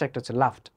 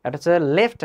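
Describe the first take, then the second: First: লাফট said with an open a, lower and softer; pronunciation demo. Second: লেফট said with a clear short e, rising at the end; pronunciation demo. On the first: Teacher contrasting two vowels: লাফট said as "laft". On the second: Teacher contrasting two vowels: লেফট said as "left". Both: Shown as a demonstration. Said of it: "প্রনাউন্সিয়েশনের difference".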